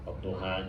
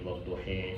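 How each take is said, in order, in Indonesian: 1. Vokal akhirnya adalah bunyi 'a' yang terbuka. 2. Vokal akhirnya condong ke bunyi 'e'.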